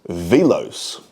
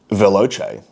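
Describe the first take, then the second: First: The c sounds like an s. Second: The c sounds like ch in cheese. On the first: It is pronounced as a French word. "it's also a French word pronounced velos" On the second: It is pronounced as an Italian word. "It's an Italian word. And the C is pronounced like a C H in cheese"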